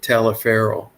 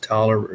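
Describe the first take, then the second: First: The name is pronounced just as it is spelled. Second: The name is pronounced as the short form Tolliver. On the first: This is how an outsider would read it. The speaker calls it wrong. "You would pronounce it Taliaferro" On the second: This is how locals actually say it. The speaker calls it right. "it's actually pronounced Tolliver"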